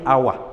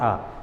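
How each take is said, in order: First: The word is said with two syllables. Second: The word is said with one syllable. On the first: The speaker calls it wrong. "Ordinarily you hear us say our. It is not our" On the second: The speaker calls it right. "It is not two syllables but one ah"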